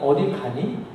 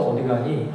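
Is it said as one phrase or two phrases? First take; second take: two phrases; one phrase. First: It is split into two phrases with different intonation. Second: It is said as one phrase with different intonation. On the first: It asks whether the listener is going somewhere. "예안이 의문문인데" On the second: It asks where the listener is going. "한 토막으로 또 억양도 달라져서"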